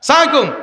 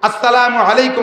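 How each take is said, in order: First: The greeting is clipped and run together. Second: The greeting is said fully with every syllable. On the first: The speaker calls it wrong. "এই সবগুলো বদদুয়ার ভাষা" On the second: The speaker calls it right. "পরিষ্কার শুদ্ধ ভাষা হবে"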